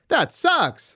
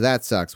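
First: It is said excitedly, with exclamatory energy. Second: It is said flatly, sounding uncaring.

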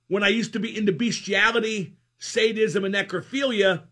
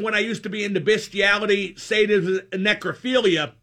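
First: The words are spoken crisply, with clear enunciation. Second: The words are spoken casually, without extra articulation. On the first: The speaker calls it right. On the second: The speaker calls it wrong.

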